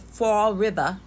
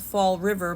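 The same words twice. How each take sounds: First: The final R is dropped, ending in a vowel. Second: The final R is clearly pronounced.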